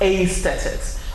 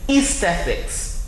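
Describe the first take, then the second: First: The first vowel is an A sound. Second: The first vowel is an E sound. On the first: The speaker calls it wrong. "not aesthetics" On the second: The speaker calls it right. "the A and the E gives you the sound E"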